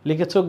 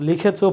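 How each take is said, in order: Both takes have the same delivery.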